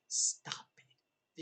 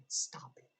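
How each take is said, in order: First: "Stop it" breathed out voiceless, a hushed scold; whispered stop it. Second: Said in the usual way. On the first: Real, not acted. Scolding shipping fans with "Stop it", a whisper. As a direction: whisper "Stop it" like a pleading aside.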